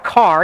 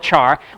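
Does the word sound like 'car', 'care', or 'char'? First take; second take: car; char. First: It begins with a k sound, like car. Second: It begins with a ch sound, like charcoal. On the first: "some people call it a car" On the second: "we don't call it a char"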